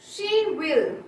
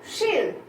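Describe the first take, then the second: First: It is said as two full words. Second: It is said as one contracted syllable.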